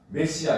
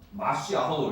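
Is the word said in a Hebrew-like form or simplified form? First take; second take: simplified; Hebrew-like. First: It is said in the simpler adapted form. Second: It is said in the harder Hebrew-like form. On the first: This is the easier everyday pronunciation. "메시아 이렇게 발음하는 거예요" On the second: This is the original Hebrew word. "마시아호 이렇게 어려우니까"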